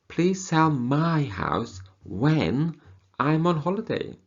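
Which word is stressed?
my. The stress falls on the word my. It is this person's house, not a relative's. "So it's not sell your sister's house, your brother's house, but my house"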